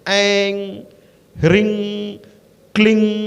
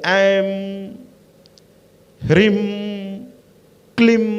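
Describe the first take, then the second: First: Each syllable ends with an ng sound. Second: Each syllable ends with an m sound. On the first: "इस पे गंग लगाइए" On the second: "कुछ लोग कहते हैं म लगाइए"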